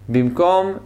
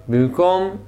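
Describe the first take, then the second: Both takes have the same delivery.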